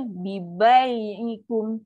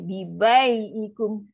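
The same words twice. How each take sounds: First: "bai" held long, voice sinking; slow controlled recitation. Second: "bai" drawn out slowly and lowered; slow recitation demo. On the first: Teacher models the correct slow "Bi bai ikum". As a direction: draw out "bai" very slowly. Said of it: "So, itulah bunyi dia". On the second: Teacher shows students the slow correct "bi bai ikum". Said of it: "Kan kita marah syurung". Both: Shown as a demonstration.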